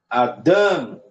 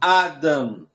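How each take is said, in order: First: The stress is on the second syllable. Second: The stress is on the first syllable. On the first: The speaker calls it right. "nós temos o dan como a sílaba maior" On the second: The speaker calls it wrong. "e não Adam"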